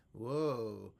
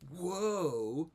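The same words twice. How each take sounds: First: Said in the usual way. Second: Higher, louder rising whoa; excited whoa. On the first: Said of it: "whoa is so much more". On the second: Shown as a demonstration. Whoa made big to show more character. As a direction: sell the amazement. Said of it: "is so much more".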